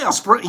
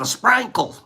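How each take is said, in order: First: It is said in a plain, general accent. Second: It is said in a Southern Tennessee accent. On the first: "you don't say a sprinkle" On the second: "in Tennessee, they speak just a little bit different"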